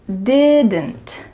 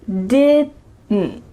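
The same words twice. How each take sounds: First: Every sound, including the final D and T, is pronounced. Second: The final D and T are cut short in the throat. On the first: "this is the clear pronunciation" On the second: "When native speakers are speaking quickly... you're going to hear didn't"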